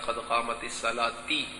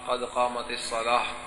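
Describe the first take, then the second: First: The last word ends with an ee vowel. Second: The last word ends with a soft h sound. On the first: The speaker calls it wrong. "बाज लोग कहते हैं ... ये गलत है" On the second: The speaker calls it right. "वक्त पर के कहना चाहिए"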